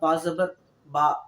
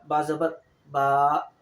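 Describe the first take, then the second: First: The final vowel is short. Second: The final vowel is lengthened.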